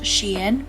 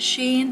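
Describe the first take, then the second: First: The name is pronounced as 'Shein'. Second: The name is pronounced as 'Sheen'. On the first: This is the official pronunciation. "it's actually pronounced Shein" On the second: This is the speaker's habitual pronunciation. "I've always pronounced it Sheen"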